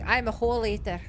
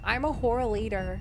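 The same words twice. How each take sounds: First: It is spoken in a Scottish accent. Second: It is spoken in an American accent. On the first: "What if I go like Scottish or something?" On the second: "Would it be better if I put on an American accent?"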